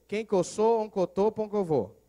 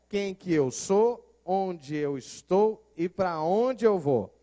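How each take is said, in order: First: It is said in a clipped mineiro accent. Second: It is said in clear standard Portuguese.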